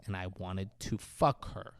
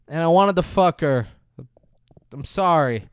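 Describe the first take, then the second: First: Low, soft villain dictation; feed the line quietly and low; low prompting. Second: Louder, higher acted confession; mock tearful confession. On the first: Retold or imitated. Villain feeds Stu his confession, low and quiet. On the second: Stu confessing to Kelly, a louder mock tearful blurt. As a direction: blurt it out, imitating a crying man. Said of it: "he's crying".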